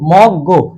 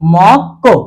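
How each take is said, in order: First: The second syllable starts with a soft g sound. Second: The second syllable starts with a tense k sound. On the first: The speaker calls it wrong. "এখন এটার উচ্চারণটা হওয়ার কথা কি মক" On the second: The speaker calls it right. "তাহলে উচ্চারণটা হবে কি মক কো"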